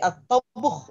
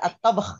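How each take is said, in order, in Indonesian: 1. Vokal disisipkan sebelum h di akhir. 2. Kata ini berakhir dengan gugus konsonan saja. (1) "Tapi at-tabuh itu bisa juga. Itu cara mewakafkan saja" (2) "Enggak at-tabh ya"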